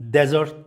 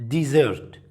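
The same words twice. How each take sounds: First: "desert" with stress on the first syllable, DEZ-ert; "desert" stressed up front, short e, DEZ-ert; desert as in sand. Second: "desert" with stress on the second syllable, di-ZERT; "desert" stressed at the end, di-ZERT; dessert pronunciation. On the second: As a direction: say "desert" like the sweet dish, di-ZERT. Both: Shown as a demonstration. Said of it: "The difference between desert".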